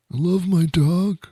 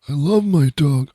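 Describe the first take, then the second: First: Very high and slow, cooing over the dog; high adoring coo. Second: Said in the usual way. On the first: Shown as a demonstration. Owner cooing about the dog, high and slow. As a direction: croon it high and slow like baby talk.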